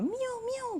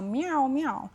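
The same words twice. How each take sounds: First: It imitates a small kitten's meow. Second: It imitates a grown cat's meow.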